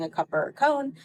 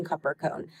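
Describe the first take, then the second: First: Higher-pitched prompt offering "A cup or a cone"; prompting question. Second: Low, soft "Cup or cone"; child's echoed response. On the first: Parent prompting son at the counter, "A cup or a cone" lifted high. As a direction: lift "A cup or a cone" high, as a choice for a child. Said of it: "me looking at him saying". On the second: Son answering parent's prompt, "Cup or cone" said low and soft. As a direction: repeat "Cup or cone" back quietly and lower. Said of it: "and him responding". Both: Retold or imitated.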